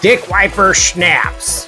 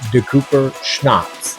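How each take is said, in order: First: The name is said like 'dick wiper'. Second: The name is said like 'de Cooper'. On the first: It sounds less fancy. "That sounds fancier than Dick Wiper Schnapps" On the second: It sounds fancier. "I would rather say De Cooper Schnapps"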